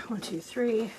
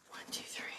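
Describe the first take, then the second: First: Said in the usual way. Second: Much softer, whispered count; counting under breath. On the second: Shown as a demonstration. Counting aloud, then whispered.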